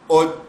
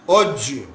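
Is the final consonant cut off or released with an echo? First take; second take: cut off; echo. First: The final consonant stops with no echo. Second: The final consonant bounces with an echo. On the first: "बगैर गूंज के" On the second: "गूंज के साथ"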